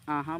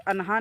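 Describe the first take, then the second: First: The n is hidden as nasalization before the h. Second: The n is fully pronounced before the h. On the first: The speaker calls it right. "बल्कि आहा बोलिएगा इख्फा के साथ" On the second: The speaker calls it wrong. "ये अनहा नहीं बोलिएगा"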